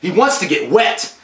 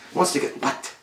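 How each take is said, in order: First: Said in the usual way. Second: Hushed, unvoiced whisper. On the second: Shown as a demonstration. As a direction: breathe it like a secret. Repeated line, whispered take.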